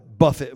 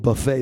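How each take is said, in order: First: The word ends with a short 'it' sound. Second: The word ends with an 'ay' sound. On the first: It means to strike or beat. "Paul said that I buffet my body" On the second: It means a self-service meal. "Some people buffet their body"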